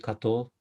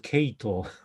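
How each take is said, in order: First: The name is said the Japanese way. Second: The name is said the British way.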